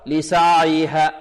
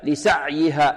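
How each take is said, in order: First: The ayn is drawn out with loose airflow. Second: The ayn is cut off sharply and tightly. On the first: "يعطيها رخاوة أكثر" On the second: "يقول هكذا لسعيها، ... خطأ"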